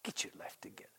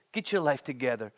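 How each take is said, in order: First: Breathy whispered scolding. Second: Said in the usual way. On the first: Pretend. Telling little Alex softly, whispered. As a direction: whisper it like a secret to a child. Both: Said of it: "how do you say it to little Alex".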